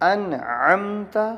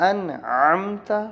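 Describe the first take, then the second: The two takes are said the same way.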